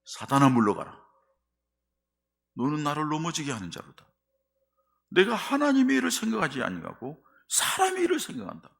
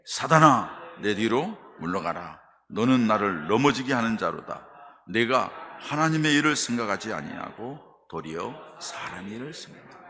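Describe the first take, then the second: First: Loud, high, forceful rebuke; sharp rebuke. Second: Loud stern rebuke; firm rebuke. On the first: Jesus rebuking Peter in a loud, high, forceful voice. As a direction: hurl the rebuke at him with full force. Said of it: "예수님이 뭐라고 그래요?". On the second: Jesus firmly rebuking Peter in a loud voice. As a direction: command it firmly, no room for argument. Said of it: "단호하게 말씀하셔요". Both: Acted.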